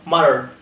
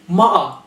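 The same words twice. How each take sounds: First: "matter" as "madder"; tapped T and R ending on "matter"; sounded T. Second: "Matter" as "ma'ah"; glottal T. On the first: Teacher showing what to avoid, "matter" as "madder". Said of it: "not matter". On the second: Teacher giving an example, "Matter" as "ma'ah". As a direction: swallow the T in "Matter". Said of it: "glottal T". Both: Shown as a demonstration.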